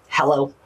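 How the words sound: It is said in a harsh, angry tone.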